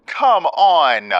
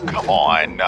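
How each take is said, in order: First: Much higher and louder, exasperated; frustrated yell. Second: Said in the usual way. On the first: Real, not acted. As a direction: shout it at the screen.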